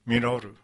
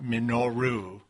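First: The r is a light Japanese tap. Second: The r is a full English r sound. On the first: The speaker calls it right. "when you say it with the Japanese, it's not quite an R" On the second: The speaker calls it wrong. "it's not quite an R. So it's not Minoru"

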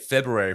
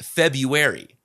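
First: The first R is pronounced. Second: The first R is silent. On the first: "I've been saying it February for so long" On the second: "it's actually pronounced February"

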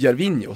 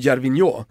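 First: The name is said with Swedish pronunciation. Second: The name is said with French pronunciation. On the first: "på svenska säger vi ju Gervinho" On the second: "på franska blir ju Gervinho"

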